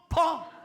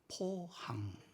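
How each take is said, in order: First: It is said loudly and abruptly. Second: It is said softly and gently.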